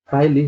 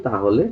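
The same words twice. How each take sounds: First: Regional তাইলি, slow; dialect taili. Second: Standard তাহলে, ta-ho-le; standard tahole. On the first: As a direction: say তাইলি slowly as the dialect form, tai-li. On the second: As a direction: say তাহলে in standard Bangla with o in the middle. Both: Shown as a demonstration. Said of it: "তাইলি হলো তাহলে".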